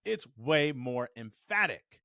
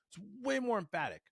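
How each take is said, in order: First: "way more emphatic" slow and loud, each word weighted. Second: High-pitched emphasis. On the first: Coach explaining say it with your chest, slow emphatic "way more emphatic". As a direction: lean hard and slowly on "way more emphatic". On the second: Coach repeating the point for effect, high-pitched emphatic voice. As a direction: lift "way more emphatic" way up high. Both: Shown as a demonstration.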